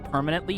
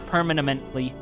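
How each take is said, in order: First: The word has its usual number of syllables. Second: The word has extra syllables added. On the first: The speaker calls it right. "instead of permanently" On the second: The speaker calls it wrong. "he accidentally adds more"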